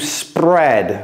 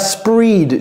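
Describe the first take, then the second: First: The vowel is a short 'e' sound. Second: The vowel is a long 'ee' sound. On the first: The speaker calls it right. "mais ici, c'est to spread" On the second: The speaker calls it wrong. "Ne dites pas spread. Je sais que E A, des fois, ça se prononce I"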